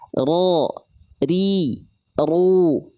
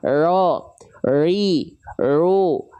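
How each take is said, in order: First: The r has a short, light but clear trill. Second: The r is said with no trill at all. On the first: The speaker calls it right. "Getarannya sedikit tapi tetap tegas dan jelas" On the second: The speaker calls it wrong. "dilafalkan hilang malah getarannya"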